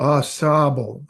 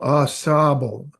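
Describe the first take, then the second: First: The name is said with a French pronunciation. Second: The name is said with a French pronunciation.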